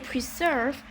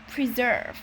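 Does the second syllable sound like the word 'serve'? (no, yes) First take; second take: yes; no. First: The second syllable sounds like the word serve. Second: The second syllable does not sound like serve. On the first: The speaker calls it wrong. "It looks like serve, but we don't say preserve" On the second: The speaker calls it right. "We say preserve"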